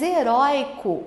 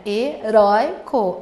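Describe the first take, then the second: First: Said in the usual way. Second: HERÓICO split into slow, loud syllables. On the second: Shown as a demonstration. Teacher showing where the diphthong falls, syllable by syllable. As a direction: break Heróico into he-rói-co, stressing rói. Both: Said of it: "o oi tá na penúltima".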